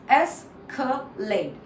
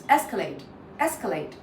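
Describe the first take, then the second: First: Three separate parts. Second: ES-calate, stress on the first part; first-syllable stress. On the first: Teacher splits the word for learners, slow syllables. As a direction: escalate broken slowly into es, ca, late. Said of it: "So there are three parts". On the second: Teacher shows which part is stressed, first syllable. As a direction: hit ES in escalate, said as one word. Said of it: "first one is stress". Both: Shown as a demonstration.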